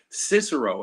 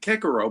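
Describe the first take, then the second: First: The first C is soft, like an S. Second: The first C is hard, like a K. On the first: This is the usual modern way. "When people normally say Cicero" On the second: This is the classical Latin way. "people wouldn't even know who the hell I'm talking about"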